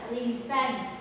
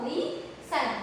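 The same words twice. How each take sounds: First: Said in the usual way. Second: "lee" and "sun" said apart, with a pause; split into syllables. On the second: Shown as a demonstration. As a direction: break "lee, sun" into two separate beats. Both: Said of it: "So, split after this".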